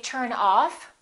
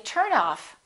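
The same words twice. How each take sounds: First: The stress is on the second part. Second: The stress is on the first part. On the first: It is a phrasal verb. "we stress the second part" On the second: It is a noun. "we stress the first part"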